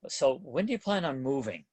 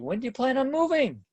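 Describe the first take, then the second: First: The pitch falls at the end of the question. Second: The pitch rises at the end of the question. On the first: "I'm downswinging at the end of those" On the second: "Or if I put it this way, listen"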